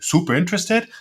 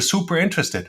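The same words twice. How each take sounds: First: The voice rises at the end. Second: The voice falls at the end.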